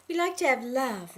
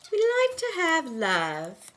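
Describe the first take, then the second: First: Said in the usual way. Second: "We like to have love" said slowly, stretched out; drawn-out repeat. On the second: Acted. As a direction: linger over "like" and "love". Repeats the line for emphasis.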